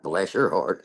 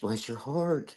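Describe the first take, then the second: First: It sounds mocking and snide. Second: It sounds warm and genuinely kind. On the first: The speaker is quietly insulting the person. "can mean it like a smart ass" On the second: The speaker truly feels sympathy. "sometimes we can say it in a good way"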